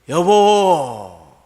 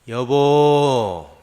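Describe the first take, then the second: First: The call is angry and loud. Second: The call is calm and plain.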